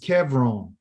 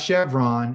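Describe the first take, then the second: First: The name begins with a 'k' sound. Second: The name begins with an 'sh' sound. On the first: This is the original Hebrew name. The speaker calls it right. "it's Kevron" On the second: This is the form used in English. The speaker calls it wrong. "It's not Chevron"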